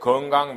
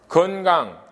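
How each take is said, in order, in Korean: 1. 첫 음절은 ng 소리로 끝나요. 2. 첫 음절은 n 소리로 끝나요. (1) "변동되지 말아야 되는데 변동된 거죠" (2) "이렇게 해야 되는데"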